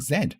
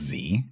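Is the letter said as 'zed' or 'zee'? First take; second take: zed; zee. First: The letter is said as 'zed'. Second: The letter is said as 'zee'. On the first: This is the British way. "We sing Z" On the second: This is the American way. "We don't sing Z when we're in school"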